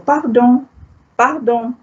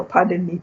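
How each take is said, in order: First: Pardon said par-DON with nasal final vowel; French pardon, stress on the last syllable. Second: Said in the usual way. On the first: Shown as a demonstration. Teacher contrasting French pardon with English. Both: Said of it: "slight difference in pronunciation".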